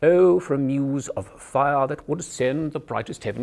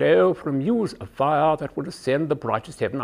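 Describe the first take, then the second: First: "Oh, for a muse of fire" in a crisp upright British RP; narrow-mouthed Received Pronunciation recital; upper class British accent. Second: RP recital with fingers pressed behind the eye teeth; a touch garbled British RP through fingers; British RP with fingers in mouth. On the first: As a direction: speak it through a crack in a door, British RP. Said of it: "imagine you're speaking through a crack in a door". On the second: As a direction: say "muse of fire" through propped-open teeth, British RP. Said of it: "press your fingers in just behind the eye teeth".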